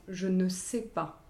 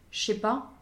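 First: "Je ne sais pas" slowly, every syllable pronounced; slight over-articulation. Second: "je sais pas" run together as "ché pas"; casual contraction. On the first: Coach demonstrating noble French, slightly over-articulated. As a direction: articulate each word of "Je ne sais pas", keeping the "ne". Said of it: "avec une très légère surarticulation". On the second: Coach showing the shortcut noble French avoids, casual contraction. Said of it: "aucun raccourci, on va pas dire des". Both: Shown as a demonstration.

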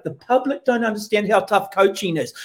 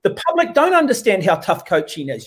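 First: Mock pundit line. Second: "don't" gestoten en nadrukkelijk; sarcastic echo with "don't" hit hard; stress on don't. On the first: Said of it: "let's give Tana a little cuddle". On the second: Retold or imitated.

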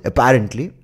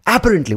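First: Apparently stressed on the second syllable, "a-PA-rently"; standard pronunciation of Apparently. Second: Apparently stressed hard on a high first syllable, "AA-parently"; Indian pronunciation of Apparently. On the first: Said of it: "what is it?". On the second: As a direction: punch the opening A of Apparently. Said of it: "when we mispronounce it". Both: Shown as a demonstration.

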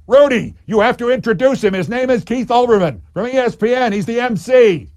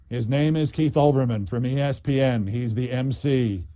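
First: Loud, high roar, pushing each word. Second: Said in the usual way. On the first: Retold or imitated. Deputy mayor ordering the mayor to introduce him, roaring. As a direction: roar the instruction right at him. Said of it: "now roared at him".

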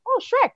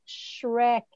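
First: Bright, high "Oh, Shrek" with a clear SH and R; mother sounding out "Shrek" for her son; saying Shrek properly. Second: Mother modelling "Shrek" again; modelling the word Shrek. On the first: Retold or imitated. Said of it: "and I went". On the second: Shown as a demonstration. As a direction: sound out "Shrek" slowly for a child. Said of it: "And I went".

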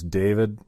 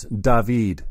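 First: "David" as English DAY-vid; usual pronunciation. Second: "David" drawn out as da-VEED; alternative pronunciation. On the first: Second guess at the shop guy's name, "David" said as DAY-vid. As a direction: say "David" with first-syllable stress, DAY-vid. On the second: Guessing the shop guy's name, "David" said as da-VEED. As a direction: say "David" slowly, second syllable long: da-VEED. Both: Shown as a demonstration. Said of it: "Maybe it's David".

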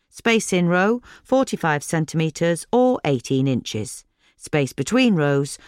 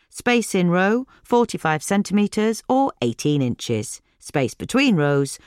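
The two takes are said the same way.

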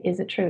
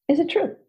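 First: Quiet self-question. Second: "Is it true?" asked high with a rising "true"; questioning rise on true. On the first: Coach modelling inner doubt, soft "Is it true?". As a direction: murmur "Is it true?" to yourself. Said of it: "You need to say". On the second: Coach testing a thought, "true" rising high. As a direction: lift "true" up like a real doubt. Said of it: "First question". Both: Shown as a demonstration.

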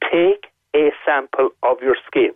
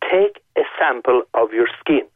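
First: Every word of "Take a sample of your skin." spaced and weighted, slower; deliberate, slowed emphasis on "Take a sample of your skin."; slow emphatic repeat. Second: Said in the usual way. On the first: Shown as a demonstration. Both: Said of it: "Now, I'm emphasizing this".

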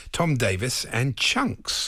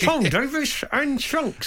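First: Slow, deliberate naming; slow and drawn out. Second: High, slow dummy voice; ventriloquist act voice. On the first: Shown as a demonstration. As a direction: drag out each name. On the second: Retold or imitated. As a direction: say it like a vent dummy. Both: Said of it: "You make it sound like a vent act".

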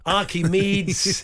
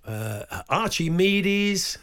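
First: Archimedes drawn out slowly, loud and high. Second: Archimedes said slowly, ch as in church. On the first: Presenter retrying a Greek name, slowly. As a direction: stretch out Archimedes carefully, ch as k. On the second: Presenter stumbling over a Greek name, slowly. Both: Shown as a demonstration. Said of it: "I do struggle with those Greek names".

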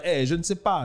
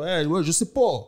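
First: "je ne sais pas" in full careful French, ne kept; standard French. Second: Casual Quebec French "je sais pas", ne dropped, last vowel rounded to "po". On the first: Contrasting textbook French with Quebec speech, standard French. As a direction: say "je ne sais pas" properly, every word pronounced. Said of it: "ils vont pas dire". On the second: Showing how locals really talk, Quebec French. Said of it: "Ils vont dire". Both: Shown as a demonstration.

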